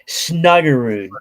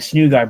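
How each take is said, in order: First: The name is said in three syllables. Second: The name is said in two syllables. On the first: The speaker calls it right. "but it's Snuggerud" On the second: The speaker calls it wrong. "you usually say Snoogard"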